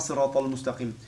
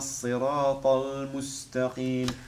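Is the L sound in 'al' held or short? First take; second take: short; held. First: The L sound is short and not held. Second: The L sound is held and lengthened. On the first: The speaker calls it wrong. "On ne dit pas sirat al moustaqim" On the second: The speaker calls it right. "On le retient"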